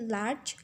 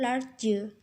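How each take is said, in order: First: The word is said as one syllable. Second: The word is split into two syllables. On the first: The speaker calls it right. "dilafalkan sebagai large" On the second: The speaker calls it wrong. "bukan large"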